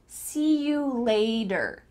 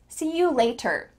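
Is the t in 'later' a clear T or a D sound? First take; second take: D sound; clear T. First: The t in later sounds like a D. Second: The t in later is a clear T. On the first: The speaker calls it right. "let's practice changing the T to a D" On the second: The speaker calls it wrong. "Americans would never say that"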